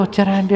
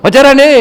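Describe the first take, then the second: First: Hushed polite question, much softer; gentle, soft. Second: High, loud mock holler; booming loud talk. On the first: Talker asking someone far away, gently and softly. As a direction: ask it too gently to carry. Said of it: "దూరంగా ఉన్నవాడిని నెమ్మదిగా". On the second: Talker addressing someone right in front, booming loudly. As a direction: ask it as if to shake the sky. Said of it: "ఆకాశం దద్దరిల్లేటట్టు మాట్లాడతారు". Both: Shown as a demonstration.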